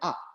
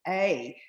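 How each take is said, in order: First: The word has a short, reduced 'uh' vowel. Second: The word has a full, drawn-out 'ay' vowel. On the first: The speaker calls it wrong. "a lot of people call it up. Dangerous" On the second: The speaker calls it right. "we labour it a little bit and we call it a"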